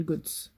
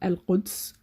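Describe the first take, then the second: First: The word starts with a hard g sound. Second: The word starts with a deep throat q sound.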